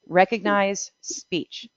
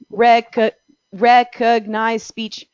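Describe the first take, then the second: First: The syllables are said evenly without pauses. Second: There are pauses between the syllables. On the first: Each word is treated as a whole unit. The speaker calls it right. "I said it without pausing any so, any uh, pausing between any syllables" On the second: Each syllable may be transcribed as a separate word. The speaker calls it wrong. "If you pause between syllables"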